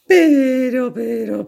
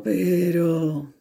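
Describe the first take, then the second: First: High, loud, stretched "Pero"; "Pero" said high and loud, drawn out as a warning; a big, high, loud "Pero"; drawn-out but. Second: Said in the usual way. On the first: A narrator's reading.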